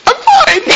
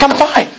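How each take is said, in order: First: Very high squeaky I'm fine; weird voice. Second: High strained reply; strained I'm fine. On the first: Boy insisting to his host he is fine, very high squeak. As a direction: squeak it out, pretending to be okay. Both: Retold or imitated. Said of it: "He kinda said it in a weird voice".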